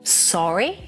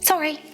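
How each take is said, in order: First: The vowel is stretched, with a big rise. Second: It is said very fast and short.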